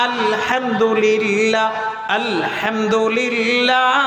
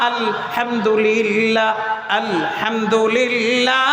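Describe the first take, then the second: Both takes have the same delivery.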